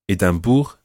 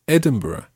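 First: "Edinburgh" as French ay-dam-BOOR; French town name. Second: Said in the usual way. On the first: Shown as a demonstration. Teacher giving example of French version, "Edinburgh" as ay-dam-boor. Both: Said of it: "French versions of certain towns".

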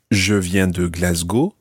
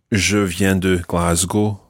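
First: Glasgow said the French way, GLAS-go with a rising end; slow French-accented Glasgow. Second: Glasgow said the English way, GLAZ-goh; slow English-sounding Glasgow; Scottish English Glasgow. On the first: Teacher models the French way to say Glasgow. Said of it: "it sounds much better to say". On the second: Teacher contrasts the English way of saying Glasgow. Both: Shown as a demonstration.

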